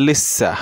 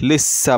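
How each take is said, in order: No difference in how they are said.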